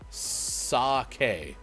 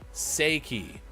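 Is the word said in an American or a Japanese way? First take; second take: Japanese; American. First: The word is said with Japanese pronunciation. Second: The word is said with American pronunciation. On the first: The speaker calls it right. "Japanese, pronounced sake" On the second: The speaker calls it wrong. "if you're an uncultured American"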